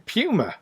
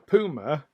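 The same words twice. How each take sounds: First: Puma is said with a British pronunciation. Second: Puma is said with an American pronunciation. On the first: "here in the U K we call it a puma" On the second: "in America the the big cat is known as a puma"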